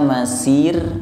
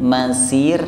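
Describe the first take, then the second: The two takes are said the same way.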